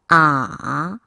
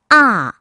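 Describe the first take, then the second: First: The syllable is said with the third tone. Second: The syllable is said with the fourth tone. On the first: "삼 성" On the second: "사 성"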